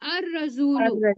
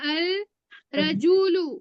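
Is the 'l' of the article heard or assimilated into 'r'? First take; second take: assimilated; heard. First: The l merges into a doubled r sound. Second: The article is said with a clear l sound.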